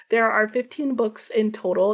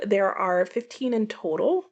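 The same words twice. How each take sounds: First: Said in the usual way. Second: Total lifted into a question; checking her count aloud, unsure. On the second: Real, not acted. Booktuber double-checking her haul count, unsure rising tune.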